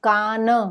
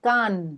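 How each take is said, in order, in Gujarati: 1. અંતિમ n એક પૂર્ણ અક્ષર છે. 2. અંતિમ n ટૂંકો કપાયેલો છે, કોઈ સ્વર નથી. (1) "તો એ આખો ન" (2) "તો એ અડધો ન"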